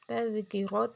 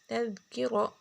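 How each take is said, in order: First: It is said in its connected, continuing form. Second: It is said in its pausal, stopping form. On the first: "وصلا" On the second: "وقفا"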